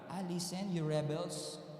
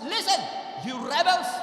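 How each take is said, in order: First: It is said in a tender, sweet tone. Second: It is said in an angry tone.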